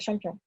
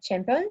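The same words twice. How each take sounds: First: The first vowel is a nasal A. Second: The first vowel is said the English way. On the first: The speaker calls it right. "on le prononce avec le A nasal" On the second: The speaker calls it wrong. "pas comme euh, en anglais. C'est pas champion"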